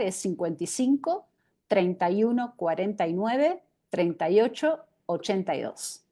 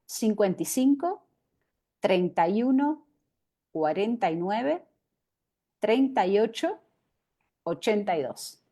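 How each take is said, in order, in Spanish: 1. El número se lee a un ritmo normal. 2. El número se lee más lento.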